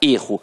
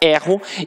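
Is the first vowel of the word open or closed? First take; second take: closed; open. First: The first vowel is closed. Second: The first vowel is open. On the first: It is the noun meaning a mistake. "o substantivo tem a pronúncia fechada" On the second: It is the verb meaning I make a mistake. "o verbo tem a pronúncia aberta"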